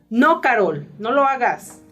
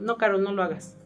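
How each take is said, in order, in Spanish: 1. La voz suena enojada y firme. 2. La voz suena suave, no enojada. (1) "te estoy poniendo una entonación... que estoy enojada" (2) "no estás tan enojada"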